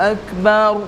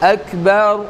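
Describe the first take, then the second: No difference in how they are said.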